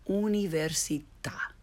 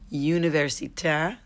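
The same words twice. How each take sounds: First: The u is a pure 'oo' sound. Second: The u is said like English 'you'. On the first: The speaker calls it right. "and then the correct way" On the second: The speaker calls it wrong. "the mispronounced way first"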